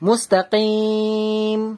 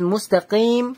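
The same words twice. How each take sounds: First: The vowel before the final m is held two counts. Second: The vowel before the final m is held one count. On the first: "দু আলিফ টান দিলাম" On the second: "এক আলিফ টান দিলাম"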